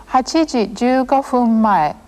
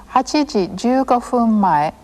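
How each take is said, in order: No difference in how they are said.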